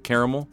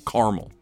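First: The middle vowel is clearly pronounced. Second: The middle vowel is dropped. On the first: The speaker calls it right. "I say caramel" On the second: The speaker calls it wrong. "I feel like it gets lost if you say caramel"

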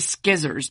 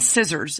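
First: The word begins with an 'sk' sound. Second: The word begins with a plain 's' sound. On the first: The speaker calls it wrong. "we don't say skizzers" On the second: The speaker calls it right. "there's also a C in scissors"

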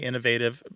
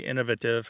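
First: It uses the typical American pronunciation. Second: It uses the typical British pronunciation. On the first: "Americans tend to say innovative" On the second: "The people in the UK tend to say innovative"

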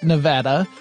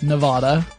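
First: It uses the pronunciation preferred by local residents. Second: It uses the widespread, non-local pronunciation. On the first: The speaker calls it right. "that is the preferred pronunciation among the locals here" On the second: The speaker calls it wrong. "I just pronounce it the way most people pronounce it"

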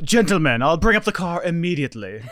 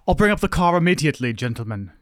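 First: It is said in a fancy, very animated way. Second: It is said in a fairly restrained way.

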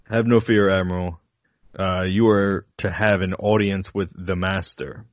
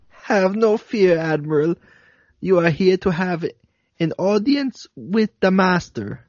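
First: It is said in the speaker's plain accent. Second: It is said in a put-on German accent.

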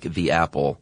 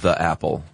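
First: The word 'the' is said with a long 'ee'. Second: The word 'the' is said with a short 'uh'. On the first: The speaker calls it right. "you should say "the" when the following noun starts with a vowel, like "the apple,"" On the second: The speaker calls it wrong. "not "the apple.""

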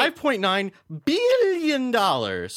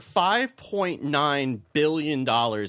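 First: It is said in a Doctor Evil voice. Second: It is said in his normal voice.

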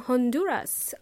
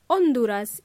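First: The word begins with an audible H sound. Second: The word begins with no H sound. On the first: This is the English pronunciation. "because in English we pronounce the letter H" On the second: This is the Spanish pronunciation. "Honduras in Spanish"

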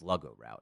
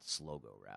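First: The first syllable rhymes with 'slug'. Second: The first syllable rhymes with 'slow'. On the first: The speaker calls it right. "I always thought it was pronounced sluggo route" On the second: The speaker calls it wrong. "not slogo route"

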